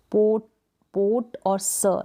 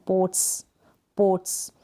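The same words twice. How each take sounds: First: पोट and स as separate syllables, "pot, suh"; wrongly split pots. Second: पोट्स as one syllable ending in a crisp "ts"; hissed final S. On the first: Teacher shows how not to say it, wrongly split pots. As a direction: break पोट off, then add स with a vowel. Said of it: "ऐसे थोड़ी बोल रहे हैं इसको". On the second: Teacher models the plural's ending, hissed final S. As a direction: end पोट्स on a pure s, no vowel. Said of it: "स करके आ रहा है इसका sound". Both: Shown as a demonstration.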